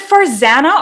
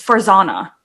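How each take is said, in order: First: "Farzana" with a short flat "a" as in "van"; first pronunciation. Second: "Farzana" with an open "ah": far-ZAH-na; second pronunciation. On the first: Host asking guest how to say her name, "Farzana" with "zan". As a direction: say "Farzana" to rhyme with "banana". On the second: Host offering the other option, "Farzana" with "zah". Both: Shown as a demonstration. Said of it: "is it Farzana or".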